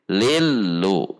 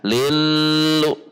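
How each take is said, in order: First: The doubled l is neither held nor abrupt. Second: The doubled l is held long. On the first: The speaker calls it right. "tidak ditahan, tidak juga dihentak" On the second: The speaker calls it wrong. "Yang ditahan"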